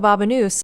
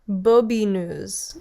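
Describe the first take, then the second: First: The name is said like 'babanoose'. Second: The name is said like 'bobineuse'. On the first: The speaker calls it wrong. "I actually literally can't believe how I just pronounced that" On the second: The speaker calls it right. "let's just actually look up the proper pronunciation"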